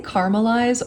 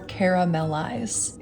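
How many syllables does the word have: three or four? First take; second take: three; four. First: The word is said with three syllables. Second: The word is said with four syllables. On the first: "Is it a three syllable word" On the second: "or a four?"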